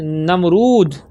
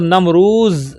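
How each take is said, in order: First: The name ends with a d sound. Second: The name ends with a z sound.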